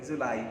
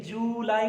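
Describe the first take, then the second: First: जुलाई with a short first vowel, 'ju-LAI'; quick unstretched 'ju' in जुलाई, then 'lai'; correct pronunciation. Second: जुलाई with the first vowel stretched, 'joo-lai'; wrong pronunciation. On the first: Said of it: "लेकिन जुलाई मत पढ़िएगा". (जुलाई में 'जु' छोटा रखकर बोलें) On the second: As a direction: drag out the 'joo' in जुलाई. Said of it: "जुलाई मत पढ़िएगा". (जुलाई में 'जू' को लंबा खींचकर बोलें) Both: Shown as a demonstration.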